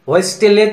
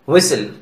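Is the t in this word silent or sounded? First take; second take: sounded; silent. First: The t is sounded. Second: The t is silent. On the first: The speaker calls it wrong. "तो नहीं बोलेंगे ना" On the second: The speaker calls it right. "यहां टी को silent किया गया है"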